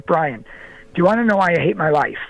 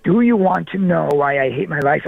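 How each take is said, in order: First: Quick, understated retold question; retold confession. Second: "Do you want to know" spaced out more firmly; retold insistent question. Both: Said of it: "almost breaks down and cries right in front of me".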